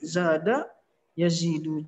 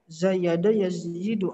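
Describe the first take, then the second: First: The first word is shortened to two syllables. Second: The first word has three syllables with a y. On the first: This is the form actually used because it is easier to say. "susah bacanya jadi zada yazidu" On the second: This is the underlying original form. "asalnya zayada yazidu"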